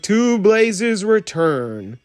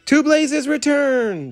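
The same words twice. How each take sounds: First: Slow, formal raised-glass toast; solemn toast. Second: Much higher chorus cheer. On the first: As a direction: propose the toast slowly. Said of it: "raised his teacup and said". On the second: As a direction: cheer it back, high and bright. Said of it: "the toys cheered". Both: Acted.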